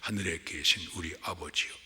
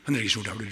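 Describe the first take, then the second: First: The prayer is recited slowly and carefully. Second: The prayer is recited quickly and mumbled.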